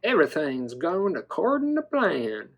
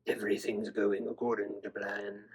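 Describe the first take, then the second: First: "plan" stretched to a southern "plain"; playful dino voice, southern accent. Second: 1 scheming villain. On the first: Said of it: "in a southern accent". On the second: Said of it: "He's like". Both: Pretend.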